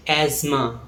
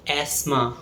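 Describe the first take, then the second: First: Asthma said AZ-ma; American pronunciation. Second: Asthma said ASS-ma; British pronunciation. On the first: Teacher showing American English asthma, AZ-ma. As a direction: say asthma with a buzzing z. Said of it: "In American English". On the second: Teacher showing British English asthma, ASS-ma. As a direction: say asthma with a voiceless s. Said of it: "In British English". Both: Shown as a demonstration.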